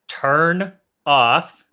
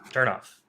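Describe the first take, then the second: First: The two words are said separately, with a break. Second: The final N runs straight into the next word. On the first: The speaker calls it wrong. "that's separate" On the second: The speaker calls it right. "Instead, we're just going to say turn off"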